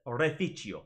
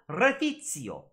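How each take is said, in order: First: "reficio" with the C as a CH sound, reh-fee-chee-o; imitating the actor. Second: "Refizio" with the C as a TS sound, reh-fee-tsee-o; imitating the actress. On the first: Teacher imitates the actor's reh-fee-chee-o pronunciation. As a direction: copy the actor, C as CH. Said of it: "the male actor pronounces it". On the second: Teacher imitates the actress's reh-fee-tsee-o pronunciation. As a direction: copy the actress, C as TS. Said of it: "so the woman says it".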